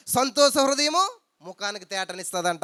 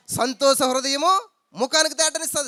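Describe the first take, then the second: First: Said in the usual way. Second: హృదయము stressed, higher and slow; emphatic repeat. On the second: Shown as a demonstration. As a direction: lift the verse up, slowly, stressing హృదయము.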